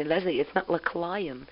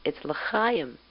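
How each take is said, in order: First: L'chaim said slowly with a hard K L, "lekla-im"; l'chaim as lekla-im, the child's mistake; l'chaim mispronounced with a K L sound; wrong l'chaim. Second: L'chaim with the throaty ch, "le-ha-im"; l'chaim said properly, guttural h; l'chaim in Hebrew, the guttural ch; correct l'chaim. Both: Shown as a demonstration. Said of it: "And when I say".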